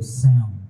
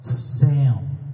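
First: The voice has less treble and more bass. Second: The voice has more treble and less bass.

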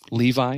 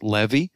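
First: It is said the familiar English way. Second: It is said the Hebrew way. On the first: The speaker calls it wrong. "the tribe of Levi isn't really pronounced Levi" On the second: The speaker calls it right. "it's pronounced Levi"

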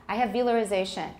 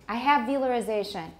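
The two takes are said the same way.

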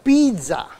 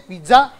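First: The stress falls on the first syllable. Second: The stress falls on the last syllable. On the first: The speaker calls it right. "It's the second last syllable that has to be stressed" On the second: The speaker calls it wrong. "How many of you say pizza?"

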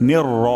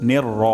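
The two takes are said the same way.

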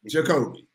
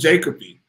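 First: The name is said like 'J' plus 'Kobe'. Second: The name does not contain the sound 'Kobe'. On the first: The speaker calls it right. "the man's name is Jacoby" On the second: The speaker calls it wrong. "they call him Jacoby"

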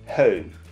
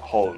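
First: It is said with a nasal-sounding British vowel. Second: It is said with a plain American vowel. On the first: "イギリスだったらちょっとhome 特にO O ちょっとなんか鼻にかかったよう" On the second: "アメリカだったら普通になんかhome"

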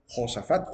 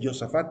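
First: The word starts with a throaty 'h' sound. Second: The word starts with a 'y' sound. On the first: The speaker calls it wrong. "no se dice Josafat" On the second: The speaker calls it right. "Una letra Yod se pronuncia como letra I"

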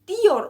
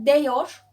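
First: The first vowel is an i sound. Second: The first vowel is an e sound. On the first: The speaker calls it right. "Diyor olur. E'yi i'ye çevirmiş olursunuz" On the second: The speaker calls it wrong. "diyor olmaz"

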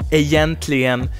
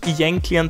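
First: The word has its full standard pronunciation. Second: The word has a simplified, childlike pronunciation. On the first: The speaker calls it right. "so heißt es und so sollte man das auch aussprechen" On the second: The speaker calls it wrong. "Es liegt einfach ein bisschen besser im Mund, egentligen zu sagen"

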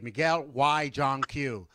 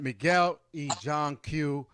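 First: The middle word sounds like English 'why'. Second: The middle word sounds like Spanish 'e'.

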